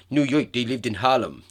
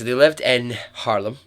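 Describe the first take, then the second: First: Jokey put-on New York accent. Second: Said in the usual way. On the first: Shown as a demonstration. Podcaster carrying on her joke in a New York accent. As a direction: say it like a mock New Yorker. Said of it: "That's my New York accent". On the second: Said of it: "No, shut up. Anyway".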